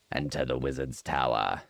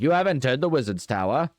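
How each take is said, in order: First: Said in the usual way. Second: Higher, bouncy cartoon show announcer; kids' TV announcer. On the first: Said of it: "sounds like some sort of Nickelodeon show thing". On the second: Shown as a demonstration. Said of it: "like, Nickelodeon show thing".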